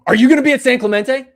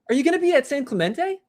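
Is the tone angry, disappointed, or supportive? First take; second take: angry; supportive. First: It sounds angry and harsh. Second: It sounds supportive and encouraging.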